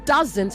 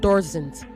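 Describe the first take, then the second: First: The word is said without any R sound. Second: The word is said with an R sound. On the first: The speaker calls it right. "it is doesn't" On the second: The speaker calls it wrong. "not doesn't. ... There is no R anywhere in that word"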